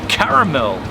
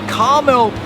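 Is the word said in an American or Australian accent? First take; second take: Australian; American. First: Australian accent, with all three syllables said. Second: American accent, with the middle vowel dropped. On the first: "Australians would read that" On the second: "now I'll do this in American"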